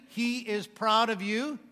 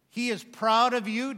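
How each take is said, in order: First: Very slow, "proud" rising and drawn out; slower repeat, "proud" stressed. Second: Slow, louder, stress on "proud"; emphatic "proud". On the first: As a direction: drive "proud" home the second time. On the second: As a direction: lean on "proud" for the congregation. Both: Acted. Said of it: "I've been pounding the pulpit lots".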